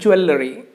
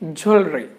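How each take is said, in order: First: The middle sounds are said as separate parts. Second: The middle sounds are blended into one sound. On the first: The speaker calls it wrong. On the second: The speaker calls it right. "Many letters are mingled together, combined together, and make only a single sound"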